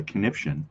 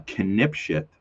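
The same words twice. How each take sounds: First: "conniption" said right, as a quick fix; corrected word. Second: "connipshit" blurted, the word botched midway; slip of the tongue. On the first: Streamer apologizes to viewers and fixes the word, quick correction. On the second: Streamer fumbles a word while chatting to viewers, tongue slip. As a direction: stumble into "connipshit" by accident. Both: Real, not acted. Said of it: "Oh, sorry, conniption".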